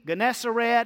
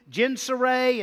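First: It begins with a hard G sound. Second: It begins with a soft G sound. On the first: "there's pronouncements with a hard G" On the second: "there's pronunciations with a soft G"

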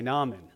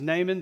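First: The name is said the non-American way. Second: The name is said the American way. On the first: "if you're going to say Baal, as we do, then you should also say Naaman" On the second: "in America, his name is pronounced as Naaman"

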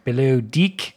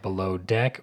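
First: It is said in an Australian accent. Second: It is said in a plain, non-Australian accent.

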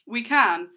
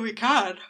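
First: It is said without a yawn. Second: It is said through a yawn. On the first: The speaker calls it right. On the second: The speaker calls it wrong.

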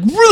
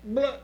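First: It is said loudly. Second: It is said quietly.

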